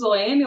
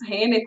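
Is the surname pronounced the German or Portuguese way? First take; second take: Portuguese; German. First: The surname is said with Portuguese sounds. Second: The surname is said with German sounds.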